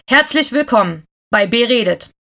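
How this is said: It is said in an angry tone.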